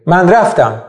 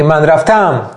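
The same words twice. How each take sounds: First: من رفتم with raf lifted and tam falling; natural word stress. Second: من رفتم with tam pushed up and drawn out, then dropped; wrong word stress. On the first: Teacher giving a Persian example, من رفتم stressed naturally on raf. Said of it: "تو فارسی هم به همین شکله". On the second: Teacher showing what nobody says, من رفتم stressed on a stretched tam. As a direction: punch the last syllable of رفتم. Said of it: "کسی نمیگه من رفتم". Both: Shown as a demonstration.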